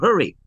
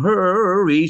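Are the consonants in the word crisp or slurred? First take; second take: crisp; slurred. First: The consonants are crisp and clearly pronounced. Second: The consonants are soft and slurred. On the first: The speaker calls it right. "pronounce the consonant" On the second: The speaker calls it wrong. "don't sing hurry"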